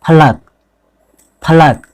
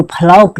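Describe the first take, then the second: First: फलक with a short second vowel, "pha-lak"; correct pronunciation. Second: फलौक with a long "au" in the second syllable; wrong pronunciation. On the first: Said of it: "इसको क्या पढ़ना है?". (फलक में छोटा "अ" बोलें) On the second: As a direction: say फलौक as "pha-lauk". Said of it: "इसको फलौक नहीं पढ़ना है". (फलौक में "औ" खींचकर बोलें) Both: Shown as a demonstration.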